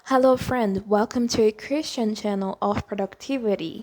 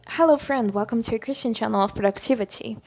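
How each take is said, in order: First: Everything is said in an American accent. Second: American accent with some British-sounding words.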